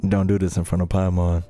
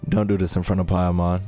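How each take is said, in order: Both takes have the same delivery.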